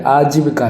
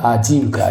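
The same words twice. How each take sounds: First: आजीविका with short "ji"; wrong short i. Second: आजीविका with long "jee"; correct long i. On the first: Teacher rejects this आजीविका, short "ji". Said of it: "जो कि बिल्कुल गलत है". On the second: Teacher gives the correct आजीविका, long "jee". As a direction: say आजीविका as "aajeevika". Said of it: "होता आजीविका". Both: Shown as a demonstration.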